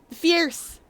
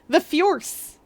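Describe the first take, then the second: First: The name rhymes with 'fierce'. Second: The name does not rhyme with 'fierce'.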